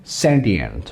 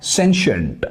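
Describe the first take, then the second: First: सेंटिएंट said with a clear T sound, sen-ti-ent; सेंटिएंट with T, as in British English; UK pronunciation. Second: सेंशिएंट said with a SH sound, sen-shent; सेंशिएंट with SH, as in American English; US pronunciation. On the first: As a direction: say सेंटिएंट the British way, hard T in the middle. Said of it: "जो इसका UK accent है ना". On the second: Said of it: "जो इसका US accent है". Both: Shown as a demonstration.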